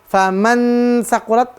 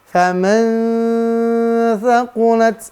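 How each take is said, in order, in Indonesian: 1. Bunyi n diucapkan jelas dan penuh. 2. Bunyi n tersembunyi dan disengaukan ke bunyi berikutnya. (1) "bukan n" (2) "Samarkan. ... lalu masuk didengungkan"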